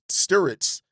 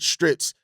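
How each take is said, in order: First: The R comes after the vowel. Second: The R comes before the vowel. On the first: The speaker calls it right. "when actually it's after the I" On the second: The speaker calls it wrong. "my brain puts the R before the I"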